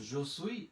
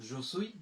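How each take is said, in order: The two takes are said the same way.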